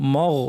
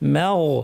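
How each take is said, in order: First: The m sound is heavy and dark. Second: The m sound is light and thin. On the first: The speaker calls it wrong. "অনেকে দুটোই ভারী করে ফেলেন, বলেন মগ" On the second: The speaker calls it right. "মিমটা পাতলা"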